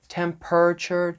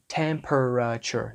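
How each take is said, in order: First: The middle syllables shrink to a short R sound. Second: Every middle syllable is said out in full. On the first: The speaker calls it right. "You could put an R sound in there" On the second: The speaker calls it wrong. "We don't say temperature, right? Temperature. No"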